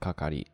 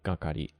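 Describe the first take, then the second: First: The word begins with a voiceless k sound. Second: The word begins with a voiced g sound. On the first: The word stands alone. "instead of kakari" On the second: The word is attached to a preceding word. "when you attach it to that ikimono, it becomes kakari"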